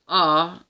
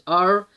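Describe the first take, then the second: First: The letter is said with a British accent. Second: The letter is said with an American accent. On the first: "in British English is R" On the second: "in American English is R"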